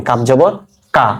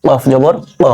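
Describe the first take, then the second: First: "কাফ" and "কা" with an ordinary k; light kaf pronunciation. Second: "কফ" and "ক" with a uvular q; deep qaf pronunciation. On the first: Teacher contrasting two letters, plain k in "কাফ জবর কা". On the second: Teacher contrasting two letters, uvular q in "কফ জবর ক". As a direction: begin "কফ" and "ক" from the back of the throat. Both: Shown as a demonstration. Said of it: "পার্থক্যটা করতে গেলে".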